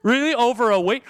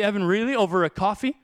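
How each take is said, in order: First: Louder and higher incredulous Really; rebuke getting sharper. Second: Gentle Jesus rebuke. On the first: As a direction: press the disbelief harder. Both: Pretend. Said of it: "Imagine if Jesus walked up".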